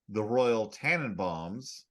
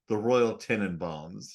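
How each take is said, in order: First: The name begins with a 'tan' vowel. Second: The name begins with a 'ten' vowel. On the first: The speaker calls it wrong. "I get annoyed when people say the Royal Tannenbaums, like the song "O Tannenbaum,"" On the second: The speaker calls it right. "but the film is titled"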